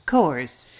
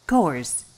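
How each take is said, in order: No difference in how they are said.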